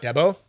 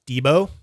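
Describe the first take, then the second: First: Debo said as DEH-bo, short e; the rejected way: Debo with an open eh sound; wrong pronunciation. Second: Debo said as DEE-bo, long ee; the right way: Debo with a long ee sound; correct pronunciation. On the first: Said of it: "So it's not Debo". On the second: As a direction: stress DEE in Debo, then bo. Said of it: "So it's not Debo, it's Debo". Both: Shown as a demonstration.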